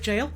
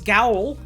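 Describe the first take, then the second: First: It is said like the word jail. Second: It is said with a hard g, rhyming with owl. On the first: The speaker calls it right. "That's pronounced like jail? Yeah" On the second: The speaker calls it wrong. "for a while, I thought it was Gowl"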